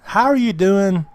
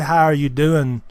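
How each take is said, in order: First: It sounds like a sincere, genuinely interested question. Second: It sounds like a quick, casual passing greeting.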